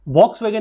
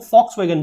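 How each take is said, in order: First: Volkswagen said with an English v at the start; wrong pronunciation. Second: Volkswagen said as fɔksʋeɡən, the first letter sounding like f; correct pronunciation. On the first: Teacher to students showing the wrong version, Volkswagen with v. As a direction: Volkswagen spoken with v as spelled, the wrong take. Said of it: "Volkswagen नहीं बोलते". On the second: Teacher to students giving the right version, Volkswagen with f. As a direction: Volkswagen spoken with an f start, the German way. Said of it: "एफ बोलते हैं ना कि वी". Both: Shown as a demonstration.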